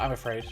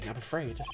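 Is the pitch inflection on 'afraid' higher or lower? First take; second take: lower; higher. First: The inflection on the phrase is lower. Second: The inflection on the phrase is higher.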